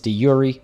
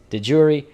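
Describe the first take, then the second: First: It is pronounced the Latin way. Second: It is pronounced the English way. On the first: "If you're speaking Latin, it's de jure" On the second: "it is in fact, yes, de jure"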